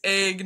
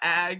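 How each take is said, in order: First: The vowel sounds like the one in beg. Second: The vowel sounds like the one in bag. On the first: This is the speaker's own way of saying it. The speaker calls it right. "it's egg" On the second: This is how the local listeners say it. The speaker calls it wrong. "not ag, because you guys say the eggs like"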